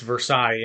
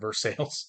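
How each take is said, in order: First: It uses the standard pronunciation of the name. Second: It uses the town's local pronunciation of the name. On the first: "it's Versailles, Indiana" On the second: "but people pronounce it Versailles"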